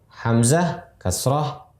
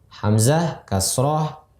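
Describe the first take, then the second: The two takes are said the same way.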